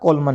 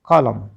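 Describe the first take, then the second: First: The word ends with an n sound. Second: The word ends without an n sound. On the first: The speaker calls it wrong. "कोलमन नहीं पढ़ना" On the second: The speaker calls it right. "एन तो silent है"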